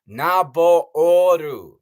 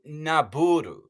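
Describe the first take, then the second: First: The middle vowel sounds like 'oh'. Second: The middle vowel sounds like 'oo'. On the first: The speaker calls it right. "There's two O's. It's Naboru" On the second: The speaker calls it wrong. "it isn't Naburu"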